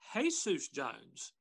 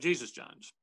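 First: Jesus is said the Spanish way, like hay-soos. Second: Jesus is said the English way, like gee-zus. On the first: The speaker calls it right. "it should actually be pronounced" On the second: The speaker calls it wrong. "instead of"

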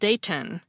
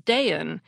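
First: The middle T is fully released with a puff. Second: The middle T is glottalized, with no puff. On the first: "instead of" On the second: "people regularly pronounce the city as"

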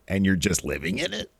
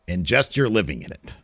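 First: It is said as a question, rising. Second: It is said as a statement, falling.

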